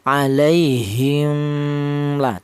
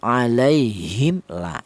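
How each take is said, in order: First: The m sound is blurred, hidden before the l. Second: The m sound is pronounced fully and clearly. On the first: The speaker calls it wrong. "tidak seperti itu tidak boleh" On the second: The speaker calls it right. "Yang benar dibaca idhar atau dibaca jelas"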